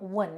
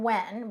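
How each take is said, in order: First: The syllable is said with a low tone. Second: The syllable is said with a high tone. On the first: The speaker calls it right. "but low tone wun" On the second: The speaker calls it wrong. "Not high tone when"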